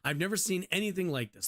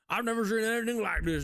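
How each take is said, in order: First: It is said in the speaker's normal voice. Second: It is said in a put-on character voice.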